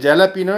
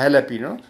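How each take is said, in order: First: The word begins with a J sound. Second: The word begins with an H sound. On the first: This is how the written spelling seems to read. The speaker calls it wrong. "लिखते जैलापिनो है ऐसा लगता है" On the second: This is how the word is actually spoken. The speaker calls it right. "और बोला जाता है हैलेपिनो"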